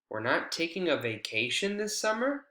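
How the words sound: The pitch rises after the focus word. It is a response to someone else's statement. "when we have rising intonation after that focus word"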